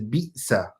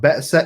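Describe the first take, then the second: First: The first vowel is an 'i' sound. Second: The first vowel is an 'a' sound. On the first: The speaker calls it right. "it is bi'sa" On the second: The speaker calls it wrong. "So it's not ba'sa"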